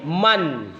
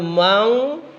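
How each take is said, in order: First: The word ends with a clear n sound. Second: The word ends with an ng sound. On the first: The speaker calls it right. "tapi man. Ya, nun mati itu harus jelas" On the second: The speaker calls it wrong. "Jadi bukan mang"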